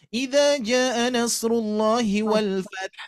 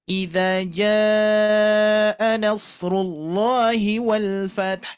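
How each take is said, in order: First: The marked vowel is cut short. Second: The marked vowel is held long. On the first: The speaker calls it wrong. "Ini malah dibaca" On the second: The speaker calls it right. "ini harus dibaca panjang ya. Yang harusnya dibaca"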